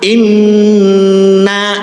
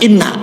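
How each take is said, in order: First: The nasal n is held for two beats. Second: The nasal n is passed over quickly. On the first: The speaker calls it right. "dengungkan minimal dua ketukan, wajibul gunnah" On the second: The speaker calls it wrong. "jangan langsung inna"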